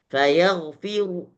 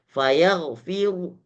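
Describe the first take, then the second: The two takes are said the same way.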